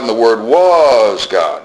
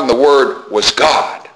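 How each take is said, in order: First: The stress falls on "was." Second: The stress falls on "God."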